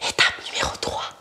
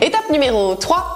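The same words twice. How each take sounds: First: It is whispered. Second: It is said in a normal voice.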